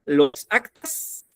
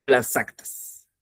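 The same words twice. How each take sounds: First: "Los actas" drawn out slowly, rising at the end; slow, questioning "Los actas"; offered option. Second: "las actas" drawn out slowly, falling at the end; slow "las actas" with a closing fall; alternative option. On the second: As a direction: lay down "las actas" slowly as the other choice. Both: Shown as a demonstration. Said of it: "¿cómo sería?".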